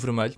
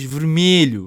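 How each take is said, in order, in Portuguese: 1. Os sons da palavra são pronunciados levemente. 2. Os sons da palavra são pronunciados com mais força. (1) "eu digo vermelho" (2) "há muita gente que diz vermelho; As pessoas carregam mais nas letras"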